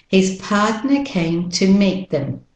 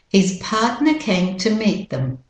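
No difference in how they are said.

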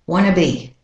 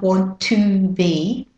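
First: Want to is reduced to wanna. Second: Each word is pronounced fully and separately. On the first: The speaker calls it right. "That makes your speech sound more like a native" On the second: The speaker calls it wrong. "Not want to be"

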